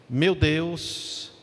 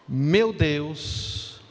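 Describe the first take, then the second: The two takes are said the same way.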